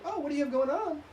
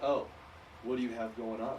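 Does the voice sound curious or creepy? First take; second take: curious; creepy. First: The voice rises higher and sounds curious. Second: The voice stays lower and sounds creepy. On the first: The speaker is genuinely interested. The speaker calls it right. "My voice naturally goes up" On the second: The speaker seems to have bad intentions. The speaker calls it wrong. "are you being creepy, dude?"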